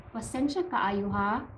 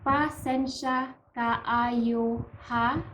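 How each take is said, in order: First: Said in the usual way. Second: Slow, drawn-out "Pasensya kaayo ha", rising at the end; slow demonstration. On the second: Shown as a demonstration. Teacher models the next apology for learners, slow demonstration. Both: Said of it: "The next one is".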